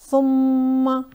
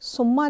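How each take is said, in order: First: The doubled m sound is held long and nasal. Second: The doubled m sound is short and quick. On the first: The speaker calls it right. "थोड़ा ठहर कर और nasal sound के साथ" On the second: The speaker calls it wrong. "तेज़ी से सुम्मा नहीं कहेंगे"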